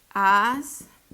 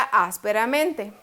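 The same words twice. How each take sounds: First: "Ásperamente" as "Ás ... pe ... ra ... men ... te"; syllable by syllable. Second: Said in the usual way. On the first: Shown as a demonstration. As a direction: pause long after each syllable of "Ásperamente". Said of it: "dividámosla". ("Ás ... pe ... ra ... men ... te", sílaba por sílaba) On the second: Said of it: "Lleva la fuerza".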